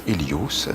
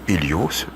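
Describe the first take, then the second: No difference in how they are said.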